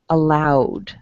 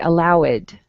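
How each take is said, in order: First: The ending is a plain 'd' sound. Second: The ending is an extra 'id' syllable. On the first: The speaker calls it right. "pronounce the verb and then the D sound" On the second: The speaker calls it wrong. "that would be incorrect"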